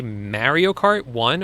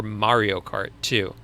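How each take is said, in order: First: "Mario" with a flat a, as in "marry"; first pronunciation of Mario. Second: "Mario" with an open ah, MAH-ree-o; second pronunciation of Mario. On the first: Streamer asking viewers which way he said it, flat-a Mario. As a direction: say Mario to rhyme its start with "marry". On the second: Streamer offering viewers the other option, MAH-ree-o. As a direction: open up the first vowel of Mario to "ah". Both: Shown as a demonstration. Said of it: "Did I say Mario Kart one or Mario Kart two".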